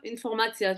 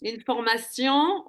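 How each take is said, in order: First: "informatia" ending in "tsya" instead of a nasal; Hebrew form. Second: "Information" said slowly with the French nasal ending; French form. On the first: Teacher showing the Hebrew word, "informatia" with final "tia". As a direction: finish "informatia" on an open "ya". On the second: Teacher giving the French word first, "Information" slowly with nasal ending. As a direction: draw out "Information", ending in "syon". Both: Shown as a demonstration. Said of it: "on dit en hébreu informatia".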